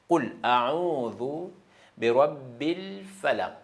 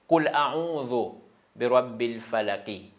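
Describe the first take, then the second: First: The final word ends on a bare consonant. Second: The final word ends with an extra 'i' vowel. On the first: The speaker calls it right. "on change le i au soukoun" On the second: The speaker calls it wrong. "On ne peut pas dire"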